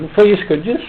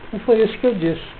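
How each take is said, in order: First: It is said with a questioning intonation. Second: It is said with a flat statement intonation. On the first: The speaker affirms having said it. "que eu estou perguntando?" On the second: The speaker denies having said it. "Mudei a entonação"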